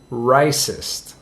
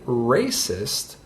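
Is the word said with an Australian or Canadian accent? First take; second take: Australian; Canadian. First: It is said in an Australian accent. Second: It is said in a Canadian accent. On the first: "an Australian might pronounce the word racist closer to racist" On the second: "the pronunciation for racist is not like mine. I'm from Canada"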